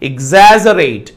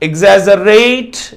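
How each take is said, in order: First: The stress is on the second syllable. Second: The stress is on the third syllable. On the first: The speaker calls it right. "The stress should be on the second syllable" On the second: The speaker calls it wrong. "ఇక్కడ stress ర దగ్గర ఉంది"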